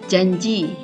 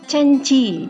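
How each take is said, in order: First: The word is pronounced clearly with j sounds. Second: The word is pronounced unclearly with c sounds. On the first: The speaker calls it right. "Sebagai contoh, janji ya" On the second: The speaker calls it wrong. "terdengar yaitu canci gitu ya sekilas. Nah, ini artikulasinya kurang jelas ya"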